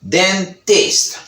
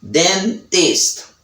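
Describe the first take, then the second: First: The T after N is pronounced, British style. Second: The same.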